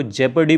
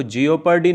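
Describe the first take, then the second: First: जेपर्डी said right as jep-ar-dee with a short e; the correct reading जेपर्डी, jep-ar-dee; correct pronunciation. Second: जियोपार्डी said wrong as jee-o-paar-dee; the mistaken reading जियोपार्डी with full jee-o-paar-dee syllables; wrong pronunciation. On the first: Teacher giving students the correct जेपर्डी, jep-ar-dee. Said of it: "इसको जेपर्डी पढ़ते हैं". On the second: Teacher showing students the wrong way to say जियोपार्डी as jee-o-paar-dee. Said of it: "इसको जियोपार्डी नहीं पढ़ते". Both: Shown as a demonstration.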